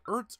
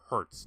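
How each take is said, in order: First: The word starts with a vowel, no h sound. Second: The word starts with a clear h sound. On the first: "Is it Ertz or Hertz" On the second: "Is it Ertz or Hertz"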